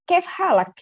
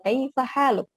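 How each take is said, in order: First: It is said clipped, with a native accent. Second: It is said with full, separate vowels. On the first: "kalau di langsung orang native" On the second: "kalau orang Indonesia itu kaifa haluk"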